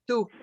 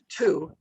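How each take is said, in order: First: The t is said without a puff of air. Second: The t is said with a puff of air. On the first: "it doesn't move because it's an unaspirated word" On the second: "the T in English ... the paper moves"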